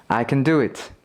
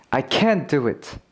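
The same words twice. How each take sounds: First: Quick weak CAN, main stress on DO; unstressed can. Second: CAN'T carries the stress and full vowel. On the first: Teacher repeating the example for learners, unstressed can. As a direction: reduce 'can' and punch 'do'. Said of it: "강세가 없으면 긍정일 때가 많고". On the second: Teacher repeating the example for learners, stressed can't. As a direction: stress 'can't', let 'do it' fall. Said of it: "강세가 있으면 부정일 때가 많다". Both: Shown as a demonstration.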